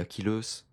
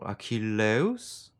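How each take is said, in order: First: It is said with French-style school pronunciation. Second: It is said with restored pronunciation and pitch melody. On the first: "On dit" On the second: "certains tentent aussi de mettre un petit peu d'intonation"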